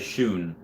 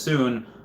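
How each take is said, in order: First: The word begins with a sh sound. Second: The word begins with a plain s sound. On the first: "a lot of times he'll say shoon" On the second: "when Shane says soon"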